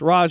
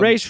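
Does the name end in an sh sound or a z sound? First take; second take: z; sh. First: The name ends with a z sound. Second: The name ends with an sh sound. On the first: "I've heard both" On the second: "you know who calls him Raish?"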